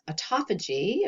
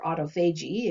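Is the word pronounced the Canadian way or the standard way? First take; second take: standard; Canadian. First: The word is pronounced the usual, non-Canadian way. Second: The word is pronounced the way Canadians say it.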